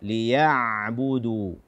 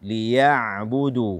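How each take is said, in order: Both takes have the same delivery.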